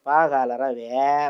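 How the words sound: It is read with Chittoor dialect modulation. The speaker calls it right.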